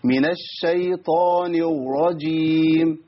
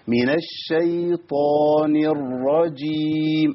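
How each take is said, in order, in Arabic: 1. الراء تطلع زي الواو. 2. الراء مشددة مرة واحدة وواضحة. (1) "انا جبت واو لان انا ما مكنتش مخرج الراء" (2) "اسمع كده الراء المشددة رأيين"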